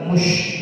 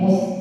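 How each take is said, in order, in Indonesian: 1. Bunyi s tebal. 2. Bunyi s tipis. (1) "Jangan dibaca tebal mush begitu" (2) "mus biasa"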